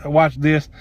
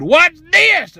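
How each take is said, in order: First: Said in the usual way. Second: High, loud challenge; defiant exclamation. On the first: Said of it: "that was kind of the theme". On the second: Retold or imitated. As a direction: throw it out as a ringing dare.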